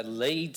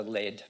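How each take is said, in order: First: "lead" rhyming with "need"; long-vowel lead. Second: "lead" rhyming with "bed"; short-vowel lead. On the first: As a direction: say "lead" as LEED, as in lead singer. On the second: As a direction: say "lead" as LED, as in the metal. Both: Shown as a demonstration. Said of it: "because I have the meaning now".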